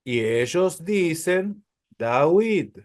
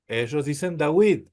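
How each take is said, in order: First: Slow, deliberate David said "dawit", with a W sound; Arabic-style David. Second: Said in the usual way. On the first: Shown as a demonstration. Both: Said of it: "a la Vav la pronuncian como U".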